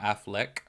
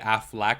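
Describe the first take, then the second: First: It does not sound like the brand Aflac. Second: It sounds like the insurance brand Aflac. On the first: The speaker calls it right. "not Affleck" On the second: The speaker calls it wrong. "I have always said Affleck"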